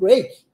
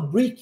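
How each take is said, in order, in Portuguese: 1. A vogal soa como 'ay', como em 'brake'. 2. A vogal soa como 'ee', como em 'breek'. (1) "eu falo break" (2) "A palavra break não pronuncia com som de I, eu não falo break"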